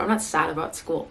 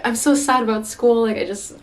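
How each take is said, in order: First: Said in the usual way. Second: High whiny complaint. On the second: Retold or imitated. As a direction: whine it like a sulky student. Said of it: "because I'm like".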